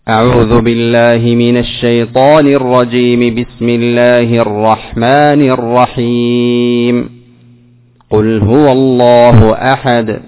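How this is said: There is a pause only after the second phrase. "وصلت الأول مع الثاني وماذا؟ وقفت على الثاني ثم بدأت بأول السورة"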